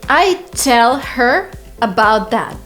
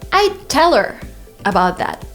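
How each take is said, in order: First: The h in 'her' is clearly pronounced. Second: The h is dropped, linking 'tell her' together. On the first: The speaker calls it wrong. "Very kind of, I don't know, artificial" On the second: The speaker calls it right. "native speaker way"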